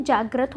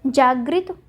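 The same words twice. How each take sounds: First: जागृत as "jagrat"; जागृत, last syllable "grat"; correct form shown. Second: जागृत as "jagrit"; जागृत, last syllable "grit"; wrong form shown. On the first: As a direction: say जागृत with short a after gr. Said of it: "क्या होता है?". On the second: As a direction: say जागृत with i after gr. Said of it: "जागृत नहीं होता है". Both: Shown as a demonstration.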